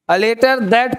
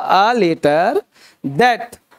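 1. यह वाक्यांश सामान्य गति से बोला गया है। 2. यह वाक्यांश धीरे और साफ़ बोला गया है।

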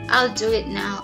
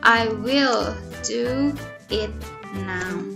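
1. 'I will' disingkat menjadi satu suku kata. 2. 'I will' diucapkan sebagai dua kata penuh. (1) "Atau naturally kita hanya bilang, kita pakai singkatan" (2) "berarti jawabannya I will do it now"

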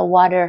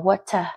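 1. Được đọc theo giọng Mỹ. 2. Được đọc theo giọng Anh. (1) "Anh Mỹ thì sẽ là water" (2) "Tiếng Anh ấy, thì họ đọc là water"

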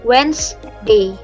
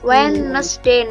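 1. Kata itu diucapkan dengan dua suku kata. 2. Kata itu diucapkan dengan tiga suku kata. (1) "Wednesday itu ada 2 suku kata ya, harusnya Wednesday" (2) "Kalau jangan dibaca Wednesday, no, it is wrong"

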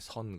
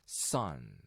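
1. 첫 s는 부드러운 예사소리예요. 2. 첫 s는 강한 된소리예요. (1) "누가 이게 선 그럽니까?" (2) "sun 이렇게 s 발음이 나는 거죠"

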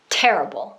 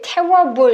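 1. 음절이 부드럽게 이어져요. 강세는 첫 음절에 있어요. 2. 가운데 r 소리가 억지로 들어가서 단어가 어색하게 나뉘어요. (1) "테다 강세 찍고 terrible 하시면" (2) "중간에 갑자기 얼 소리를 막 내주려고 하면 테러 이렇게 테러블 이렇게 불편할 수 있어요"

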